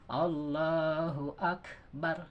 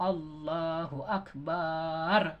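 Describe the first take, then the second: First: The vowel in Akbar is short, with slight breath. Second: The vowel in Akbar is drawn out long. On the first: The speaker calls it right. "Ada sedikit eh, suara napas gitu, desah" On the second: The speaker calls it wrong. "Kalau dibancangkan mbaknya misalnya"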